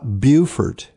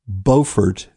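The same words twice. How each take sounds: First: It is said the South Carolina way. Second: It is said the North Carolina way. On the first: This names the town in South Carolina. The speaker calls it wrong. "not Beaufort. That's South Carolina" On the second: This names the town in North Carolina. The speaker calls it right. "Beaufort, North Carolina, spelled the same, pronounced very differently"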